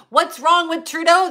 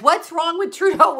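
First: Higher sing-song quote of a troll; mocking the troll. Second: Higher, falling mock-serious "What's wrong with Trudeau?"; mocking serious troll. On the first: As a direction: mimic the troll's question mockingly. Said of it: "This troll says". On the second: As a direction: repeat it with a fake straight face. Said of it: "with a serious face".

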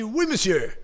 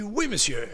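First: "Oui, monsieur" shouted out loud and high; loud confident answer. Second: "Oui, monsieur" raised a little, not yet full force; first try at "Oui, monsieur", only moderately strong; answer model. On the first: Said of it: "on parle fort". (« Oui, monsieur » crié fort avec assurance) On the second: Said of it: "J'aime ça quand vous répondez fort". (« Oui, monsieur » dit un peu plus haut, sans vraie force) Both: Shown as a demonstration.

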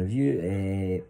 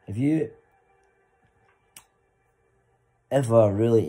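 First: "Have you, eh" trailing into filler; hesitant question. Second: High, loud clear question "Have you ever really"; confident question. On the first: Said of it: "instead of going". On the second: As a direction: ask "Have you ever really" boldly without fillers. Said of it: "just go". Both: Shown as a demonstration.

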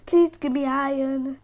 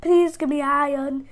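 Both takes have the same delivery.

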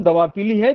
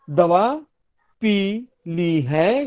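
First: पीली said straight through with no pause; पीली as one word. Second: Very slow, पी and ली held apart; pause inside पी ली. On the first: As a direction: keep पीली joined, meaning yellow. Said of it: "जब मैं पीली बोल रहा हूँ". (पीली बिना विराम, एक शब्द में) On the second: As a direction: stretch पी, pause, then ली है. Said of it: "अर्थभेद हुआ है जंक्चर के कारण". (पी और ली अलग-अलग, धीरे) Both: Shown as a demonstration.

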